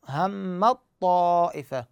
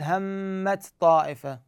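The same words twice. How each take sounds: First: همت طائفة read slowly, the ت gone, a doubled ط; merged t into ṭ. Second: همت طائفة with the ت kept before the ط; the reading to avoid, ت not dropped; wrong unmerged reading. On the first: Teacher recites the example slowly for students. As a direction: glide from the م straight into the ط of همت طائفة. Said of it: "شوف". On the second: Teacher shows students the wrong reading. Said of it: "ما أقول". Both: Shown as a demonstration.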